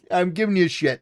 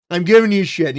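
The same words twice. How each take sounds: First: Said in the usual way. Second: "I'm giving you shit" repeated louder with a firm fall on "giving"; louder teasing repeat to the late viewer. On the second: Real, not acted. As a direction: lean on "giving" the second time.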